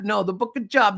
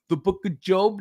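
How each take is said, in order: First: "Job" with a short o, like rob; mistaken Job. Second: "Job" with a long o, like robe; higher, say "Job" to rhyme with globe; correct Job. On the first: Arguing at Bible study, "Job" wrongly rhymed with rob. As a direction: insist higher on "Job" as in a day's work. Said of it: "J O B". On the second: Bible study group correcting him, "Job" with a long o. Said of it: "would be J O B E". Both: Retold or imitated.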